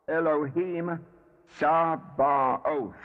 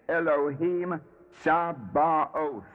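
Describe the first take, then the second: No difference in how they are said.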